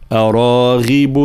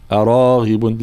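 First: أراغب slowly, with a fully voiced غ; voiced ghain. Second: أراغب with the غ barely voiced; weak ghain. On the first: Teacher models correct أراغب, voiced غ. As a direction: stretch أراغب and let the غ buzz. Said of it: "هكذا". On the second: Teacher shows the wrong أراغب with weak غ. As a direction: say أراغب with a faint, unvoiced غ. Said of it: "فلا نقول أراغب". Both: Shown as a demonstration.

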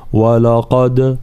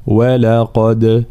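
First: ولقد with the و and ل made heavy like the ق; deliberately wrong heavy ولقد; wrong reading. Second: ولقد with a light و and ل and a heavy ق; correct reading. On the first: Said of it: "فلا نقول". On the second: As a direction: say ولقد with thin و and ل and a full ق. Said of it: "هكذا". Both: Shown as a demonstration.

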